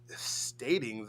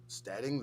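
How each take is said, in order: First: Said in the usual way. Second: "stating" said with a short flat A, like "statting"; misread word. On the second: Real, not acted. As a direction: misread "stating" as "STAT-ing". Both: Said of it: "It said stating".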